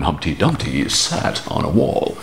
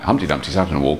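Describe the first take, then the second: First: It is said in a put-on character voice. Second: It is said in his ordinary speaking voice. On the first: "So I did it as Crichton" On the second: "in my own voice, my own normal voice, just talking like"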